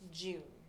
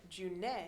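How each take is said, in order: First: The word ends on the n with no vowel. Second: An extra vowel is sounded after the final n. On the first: The speaker calls it right. "the E is silent, always silent" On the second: The speaker calls it wrong. "instead of June"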